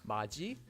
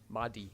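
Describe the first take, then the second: First: The middle consonant is a j sound. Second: The middle consonant is a d sound. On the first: The speaker calls it right. "would be pronounced as maji" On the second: The speaker calls it wrong. "and not madi"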